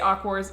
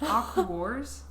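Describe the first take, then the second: First: The syllables run together smoothly as one word. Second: It is said as three separate syllables. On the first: The speaker calls it right. "you say Aquars" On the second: The speaker calls it wrong. "I pronounced it as like three separate syllables"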